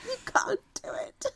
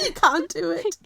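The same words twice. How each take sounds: First: Very high, breathy teasing whisper. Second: Much higher and louder teasing call. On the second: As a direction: tease them loudly. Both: Pretend. Teasing the cohost, two contrasting takes.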